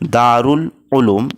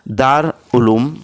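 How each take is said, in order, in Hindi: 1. यह 'Dar' के बाद 'ul' के साथ बोला जाता है। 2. यह 'Dar' के बाद बिना 'ul' के बोला जाता है। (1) "सही तलफ़ुज़ और प्रोनाउंसिएशन है वो है ऑप्शन नंबर दो" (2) "नंबर एक है"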